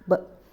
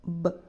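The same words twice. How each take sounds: First: The b is short, kept inside the mouth. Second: The b is short, kept inside the mouth.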